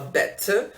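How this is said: It is said in a posh British accent. "o britânico, o posh, que é o da família real, fala better"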